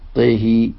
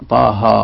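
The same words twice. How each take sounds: First: The vowels lean toward an e sound. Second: The vowels are open a sounds. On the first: The speaker calls it right. "وكسر الطاء والهاء" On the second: The speaker calls it wrong. "ولم يكسر"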